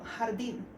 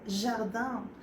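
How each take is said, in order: First: It is pronounced with Spanish sounds. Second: It is pronounced with French sounds. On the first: "lo lees igual" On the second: "pero se pronuncia nada que ver"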